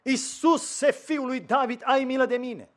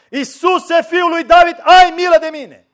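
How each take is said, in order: First: Crying out. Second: Desperate cry, much louder and higher. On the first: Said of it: "a început să strige cât a putut de tare". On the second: Blind Bartimeu calling over the scolding crowd, desperate loud cry. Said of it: "să strige mai tare". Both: Retold or imitated.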